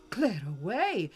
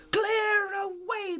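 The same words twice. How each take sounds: First: Said in the usual way. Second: "Clear away" cried high and slow by merry Fezziwig; jovial call. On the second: A narrator's reading. Fezziwig orders the room cleared, slow jovial cry of "Clear away". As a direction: sing out "Clear away" like a cheerful master. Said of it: "cried old Fezziwig".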